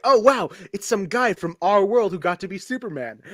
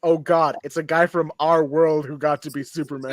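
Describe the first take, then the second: First: Delighted fan wonder; excited. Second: Weary, disgusted groan of a fan; dismayed. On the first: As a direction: say it like a thrilled fan. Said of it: "it's cool, like". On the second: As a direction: say it like it's a letdown. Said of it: "And then in two thousand and five". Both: Retold or imitated.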